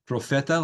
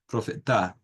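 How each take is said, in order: First: The stress is on the second-to-last syllable. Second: The stress is on the last syllable. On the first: "like we would have in Spanish" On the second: "if we were to read that in Guarani, it would be profeta"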